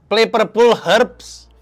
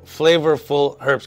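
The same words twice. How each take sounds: First: It is said in a Sundanese accent. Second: It is said in a standard English accent. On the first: "Kita coba tapi salah. Sunda" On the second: "kata dia"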